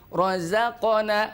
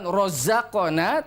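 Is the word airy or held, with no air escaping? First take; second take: held; airy. First: The air is held back with the word. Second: Much air escapes with the word. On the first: The speaker calls it right. "tapi rozaqona ... Benar-benar dijaga nafasnya" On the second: The speaker calls it wrong. "Bukan rozaqona"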